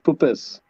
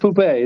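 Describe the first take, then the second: First: It is said with every letter clearly sounded. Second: It is said French-style with letters left silent. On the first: The speaker calls it right. "You pronounce all the letters" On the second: The speaker calls it wrong. "Not like poupée"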